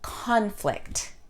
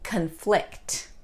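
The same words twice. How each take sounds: First: The stress is on the first syllable. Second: The stress is on the second syllable. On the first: It is used as a noun. "The noun" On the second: It is used as a verb.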